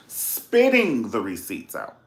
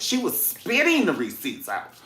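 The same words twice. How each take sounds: First: "Spitting the receipts out" drawn out slowly, stressed on "Spitting"; emphatic slow "Spitting the receipts out"; slow emphatic repeat. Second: Said in the usual way. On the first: Shown as a demonstration. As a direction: lean hard on "Spitting".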